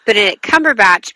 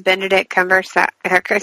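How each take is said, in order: First: "Benedict Cumberbatch" said clearly as "Cumber-batch"; "Benedict Cumberbatch" with every syllable pronounced properly; correct pronunciation. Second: "Benedict Cumberbatch" slurred as "Bendedick Cumversack"; "Benedict Cumberbatch" with the consonants garbled, hurried and mumbled; mispronounced name. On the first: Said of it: "I say his name right every time". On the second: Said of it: "now I'm gonna say his name wrong". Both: Shown as a demonstration.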